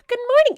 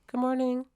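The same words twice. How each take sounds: First: It sounds warm and genuine. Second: It sounds rehearsed and automated.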